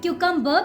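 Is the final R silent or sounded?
silent. The final R is not pronounced. "in India we call it cucumber because we don't pronounce last R"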